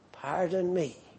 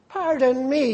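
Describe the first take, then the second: First: It is said in a humble, contrite tone. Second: It is said in an angry, indignant tone. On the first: The speaker asks forgiveness for wrongdoing. The speaker calls it right. "language that can only be used in contrition" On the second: The speaker takes offence at what was said. The speaker calls it wrong. "You say it in anger. Pardon me, you're most indignant"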